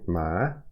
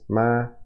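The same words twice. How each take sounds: First: The pitch rises from middle to high. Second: The pitch stays high and level. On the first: "two is rising ma" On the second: "High is ma"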